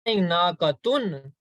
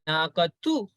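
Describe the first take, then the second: First: The word ends with an n sound. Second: The word ends with a vowel. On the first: The speaker calls it wrong. "I'm not saying Naqatun" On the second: The speaker calls it right. "So there is no noon sound"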